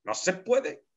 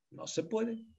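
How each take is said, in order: First: No se puede, firm and higher with puede falling; firm insistence. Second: No se puede, much higher and far softer with puede rising; soft high echo. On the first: Teacher repeats his rule to the class, firm and final. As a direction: state it as final. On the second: Teacher echoes his rule to the class, a soft high afterthought. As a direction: let it float away like an echo. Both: Shown as a demonstration. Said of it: "No se puede hablar del sueño".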